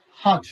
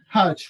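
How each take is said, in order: First: HOT with a rounded British O; British pronunciation. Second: HOT with an open American "ah" vowel; American pronunciation. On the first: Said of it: "British people, they call". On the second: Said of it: "American people". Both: Shown as a demonstration.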